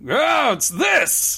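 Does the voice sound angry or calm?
angry. It is said in an angry tone.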